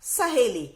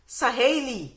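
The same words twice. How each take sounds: First: सहेली as "sa-he-lee", with a pure e; correct e vowel. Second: सहेली misread as "sa-hai-lee", with an ai glide; wrong ai vowel. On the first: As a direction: model सहेली with a plain long e, no glide. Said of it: "लेकिन ए का उच्चारण निकलता है". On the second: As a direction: stretch an ai into the middle of सहेली. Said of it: "सहेली में ऐ की मात्रा लगी है". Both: Shown as a demonstration.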